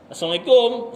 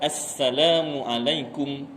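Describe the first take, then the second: First: It is rushed, with the opening sounds swallowed. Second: It is said slowly, with every syllable clear. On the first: The speaker calls it wrong. "Laju. Asnya tak nampak, tak dengar" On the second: The speaker calls it right. "Jadi yang betul"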